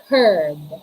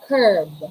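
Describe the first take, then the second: The two takes are said the same way.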